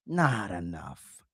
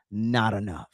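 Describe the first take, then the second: First: Not enough said slowly and softer, each word weighed; slow, drawn-out repeat of Not enough. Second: Said in the usual way. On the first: Real, not acted. Host driving home his point to viewers, slow and deliberate.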